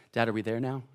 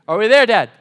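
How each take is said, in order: First: Put-on lower, softer kid's question; small child asking. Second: Put-on loud, higher kid's demand; mock a whiny child calling out to Dad; impatient child. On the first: Three-year-old asks Dad ten minutes later, softly. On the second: Three-year-old asks Dad on the drive, loud and impatient.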